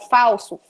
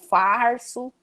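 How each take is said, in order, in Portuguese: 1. Um som de L vem antes do S. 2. Um som de R vem antes do S.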